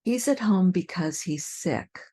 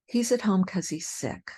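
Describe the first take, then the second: First: He's at home because he's sick with because in full. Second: He's at home 'cause he's sick with because clipped to cause; reduced cause. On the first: Teacher's careful sentence. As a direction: say because clearly. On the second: Teacher's relaxed sentence. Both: Shown as a demonstration. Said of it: "Here are a few more".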